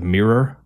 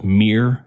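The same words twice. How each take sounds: First: It is said with the usual standard pronunciation. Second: It is said with a regional Michigan pronunciation.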